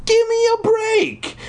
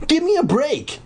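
First: Very high, drawn-out squealing protest; hammed-up squeal, stretch every word; crying out. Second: High, quicker protest, less extreme; crying out. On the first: Brother protests to his blocking sister, over-the-top high cry. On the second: Brother protests to his blocking sister, toned-down high cry. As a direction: whine it out high without squealing. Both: A narrator's reading. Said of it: "he cried".

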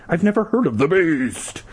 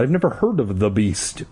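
First: Higher, dramatic THE BEAST; theatrical emphasis on BEAST; hammed-up retake. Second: Said in the usual way. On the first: A narrator's reading. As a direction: raise the pitch and stretch BEAST. Retake, hammed-up last word.

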